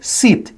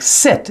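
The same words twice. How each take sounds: First: Sit with a long tight ee, seet; sit as Penelope says it; Italian-style sit. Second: Sit with a short lax i; plain American sit; English sit. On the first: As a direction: say sit like seat. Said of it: "is always like". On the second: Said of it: "The I, like". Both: Shown as a demonstration.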